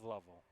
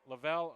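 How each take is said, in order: First: The name rhymes with shovel. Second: The name does not rhyme with shovel. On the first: The speaker calls it right. "it is Lovell. ... is like a shovel" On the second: The speaker calls it wrong. "that name is pronounced Lavelle or Lovell"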